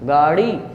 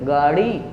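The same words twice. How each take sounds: Both takes have the same delivery.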